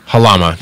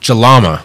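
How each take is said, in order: First: The name begins with a breathy H sound. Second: The name begins with a hard J sound.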